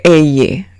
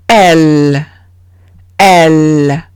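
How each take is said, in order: First: "elle" said with a y sound, e-ye; Spanish ll. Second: "elle" as one low syllable, el; French ll as L. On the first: Teacher showing the reading to avoid, Spanish y sound. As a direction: say "elle" the Spanish way, as eye with two syllables. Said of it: "como en español". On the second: Teacher modelling double L in French, plain L. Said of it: "se lee como una L". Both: Shown as a demonstration.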